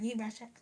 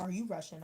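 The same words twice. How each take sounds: First: Higher, exaggerated "Are you Russian?"; mock rude question. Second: Said in the usual way. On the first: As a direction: mimic an obnoxious way of asking, pitched up. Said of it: "I wasn't gonna be like". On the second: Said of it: "And I was like".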